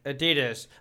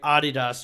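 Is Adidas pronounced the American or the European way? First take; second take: American; European. First: Adidas is pronounced the American way. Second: Adidas is pronounced the European way.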